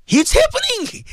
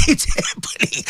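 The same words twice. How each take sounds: First: High, outraged exclamation; exclaimed. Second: Breathy, slow bitter laugh through the words. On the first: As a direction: cry it out much higher in disbelief. Exclaims about mistreatment of servants. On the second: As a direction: laugh it out slowly, half unvoiced. Repeats claim through a laugh. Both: Real, not acted.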